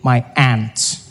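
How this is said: Aunt sounds like the insect ant.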